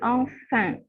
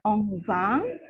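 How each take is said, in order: First: The nasal vowel sounds like 'in'. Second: The nasal vowel sounds like 'on'. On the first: The speaker calls it right. "tapi enfant" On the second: The speaker calls it wrong. "bukan enfant"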